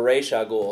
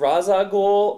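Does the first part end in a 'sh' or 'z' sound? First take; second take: sh; z. First: The first part ends with a 'sh' sound. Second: The first part ends with a 'z' sound. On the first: "R A Y S H" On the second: "R A Z"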